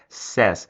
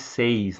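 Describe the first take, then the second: First: The vowel is a short, flat 'eh' sound. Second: The vowel glides like 'ay', rhyming with 'seis'. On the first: The speaker calls it right. "A forma correta de pronunciar é says" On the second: The speaker calls it wrong. "Cuidado para não falar seis"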